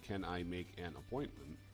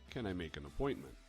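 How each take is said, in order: First: Each word is said separately with small breaks. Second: The words blend together with no breaks. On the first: The speaker calls it wrong. "instead of saying" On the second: The speaker calls it right. "try saying"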